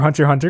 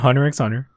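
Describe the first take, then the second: First: The middle X is left silent. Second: The middle X is pronounced aloud. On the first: The speaker calls it right. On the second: The speaker calls it wrong.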